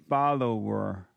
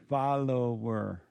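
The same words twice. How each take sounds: Both takes have the same delivery.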